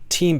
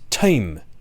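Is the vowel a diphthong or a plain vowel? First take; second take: plain vowel; diphthong. First: The vowel is a single long vowel. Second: The vowel glides as a diphthong. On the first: This is the older pronunciation. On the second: This is the pronunciation by fifteen fifty.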